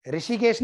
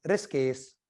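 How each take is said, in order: First: Said in the usual way. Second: ऋषिकेश said as rish-kes, the i after sh dropped; ऋषिकेश the hill way, rishkes; Pahari pronunciation. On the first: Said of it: "ऋषिकेश नहीं". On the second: Shown as a demonstration. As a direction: Pahari ऋषिकेश squeezed into two syllables. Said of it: "ये पहाड़ी में बोलना है".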